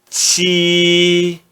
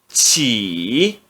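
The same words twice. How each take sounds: First: The syllable is said in the first tone. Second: The syllable is said in the third tone. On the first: "No primeiro tom" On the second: "No terceiro tom"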